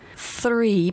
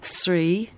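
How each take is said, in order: First: The word starts with a th sound. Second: The th sound is replaced by another sound. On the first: The speaker calls it right. "Three becomes three" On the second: The speaker calls it wrong. "Three becomes three"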